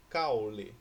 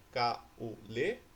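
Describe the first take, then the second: First: "caule" as cau-le, A and U joined in one syllable; diphthong kept together. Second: "caule" as ca, u, le, slowly with pauses; three-syllable split. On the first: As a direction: say "caule" with an unbroken, emphatic "cau". ("caule" com o ditongo junto: cau-le) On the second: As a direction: pull the U of "caule" away into its own syllable. ("caule" separado em três sílabas: ca, u, le) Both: Shown as a demonstration. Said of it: "Como que eu separo a palavra caule?".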